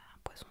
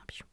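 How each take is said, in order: First: The middle consonant is a plain s sound. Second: The middle consonant is a ch sound. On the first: "Le son S, comme dans poisson" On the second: "ça devient ch"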